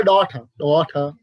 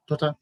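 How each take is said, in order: First: DAUGHTER twice with a clear T; British pronunciation. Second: DAUGHTER with a flat, light T; American pronunciation. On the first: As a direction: say "daughter" as British "daw-tuh", T released. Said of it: "British people". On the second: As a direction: say "daughter" without weight on the T. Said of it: "The American". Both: Shown as a demonstration.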